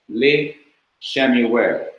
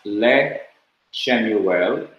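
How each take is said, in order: First: The first syllable has a short i vowel. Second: The first syllable has a short e vowel. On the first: The speaker calls it right. "it would be pronounced li Shemuel" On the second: The speaker calls it wrong. "Two shawahs cannot stand together at the beginning of a word as le Shemuel"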